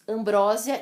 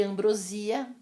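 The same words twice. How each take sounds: First: "ambrósia" as am-BRÓ-sia; "ambrósia" with loud stressed BRÓ; stress on second syllable. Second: "ambrosia" as am-bro-SI-a; "ambrosia" with a long stressed i. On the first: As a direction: punch the open BRÓ in "ambrósia". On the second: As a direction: lean on the SI of "ambrosia". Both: Shown as a demonstration. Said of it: "admitem duas pronúncias".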